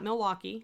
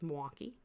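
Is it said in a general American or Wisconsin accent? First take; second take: general American; Wisconsin. First: It is said in a general American accent. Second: It is said in a local Wisconsin accent.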